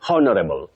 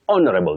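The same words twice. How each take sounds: First: The word begins with a pronounced H sound. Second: The word begins with a vowel, H silent. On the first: The speaker calls it wrong. "You don't say honorable" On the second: The speaker calls it right. "because that H is silent"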